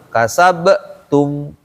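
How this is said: The word stops briefly after the b sound. The speaker calls it wrong. "Bukan kasabetum. Nggak berhenti di situ"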